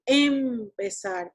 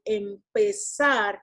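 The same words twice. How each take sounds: First: The first syllable is stressed more than the second. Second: The second syllable is stressed more than the first. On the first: The speaker calls it wrong. "we don't say empezar" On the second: The speaker calls it right. "the one that has more strength is pez"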